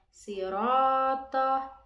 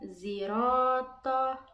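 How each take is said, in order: First: The word begins with an s sound. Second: The word begins with a z sound.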